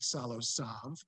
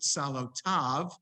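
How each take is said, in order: First: The last syllable begins with an s sound. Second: The last syllable begins with a t sound. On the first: This is another reader's pronunciation. "Paul would pronounce it Salo Sav" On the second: This is the speaker's own pronunciation. "but I pronounce it Salo Tav"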